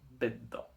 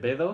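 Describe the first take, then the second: First: The middle consonant is held long, doubled. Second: The middle consonant is short and single. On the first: The speaker calls it right. "Hace que se doble la consonante siguiente" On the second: The speaker calls it wrong. "en vez de bedo"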